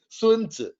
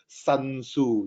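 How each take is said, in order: First: The name is said with a Chinese-style pronunciation. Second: The name is said with an English-style pronunciation. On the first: The speaker calls it right. "please pronounce properly" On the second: The speaker calls it wrong. "they even pronounce him wrongly"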